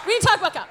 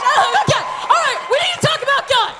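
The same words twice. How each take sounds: First: Said in the usual way. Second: Laughing. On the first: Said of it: "composed restart". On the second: Real, not acted. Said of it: "laughing restart".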